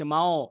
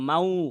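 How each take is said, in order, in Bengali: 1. শেষটা একটু ভারী নাসাল, n আর w-এর মাঝামাঝি। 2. শেষটা পুরোপুরি w শব্দে চলে যায়। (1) "সেই জন্য আমার উচ্চারণটা মাও হচ্ছে" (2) "আমি যদি মাউ বলতাম মাউ, সেটা ভুল হইতো"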